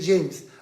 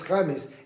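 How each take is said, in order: First: The name is said the English way. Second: The name is said the Spanish way. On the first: "en inglés puede ser James" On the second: "en castellano es James"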